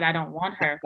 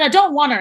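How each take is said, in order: First: Low, soft, reluctant refusal; understated, muted no; low-key refusal. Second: Louder, firmer retold refusal; emphatic retold no; insistent refusal. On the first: Retold or imitated. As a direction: turn it down quietly, pitched well below usual. First refusal to take trainee. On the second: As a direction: push back harder, voice raised. Repeated refusal, friends pressing her.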